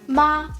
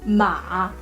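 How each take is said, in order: First: The pitch stays high and level. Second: The pitch dips low and then rises. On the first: "I will use the first tone" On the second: "and then ma"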